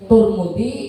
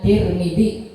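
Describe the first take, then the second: First: The first two vowels are both u. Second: The first two vowels are both i. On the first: This is the reading of careful scholars. "Wagam muhuma domah keduanya" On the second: This is the most widely known reading. "paling masyhur bacaannya Tirmidzi"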